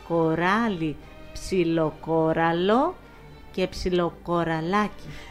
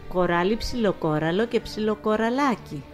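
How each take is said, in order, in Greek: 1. Η φράση λέγεται αργά και προσεκτικά. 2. Η φράση λέγεται με κανονική, πιο γρήγορη ταχύτητα.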